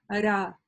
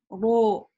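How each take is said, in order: First: The r is softened, sounding like rya. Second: The vowel turns rounded, sounding like ro. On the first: "это мягко" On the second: "Не говорим ро ... переходит ... на о"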